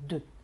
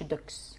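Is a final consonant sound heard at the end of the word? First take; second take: silent; sounded. First: The word ends on the vowel with no consonant. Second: The word ends with an audible ks sound. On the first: The speaker calls it right. "بنقول دو" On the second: The speaker calls it wrong. "ما نقولش دوكس"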